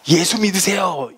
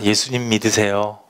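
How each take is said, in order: First: It is said in a hot-tempered, angry way. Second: It is said in a calm, gentle way.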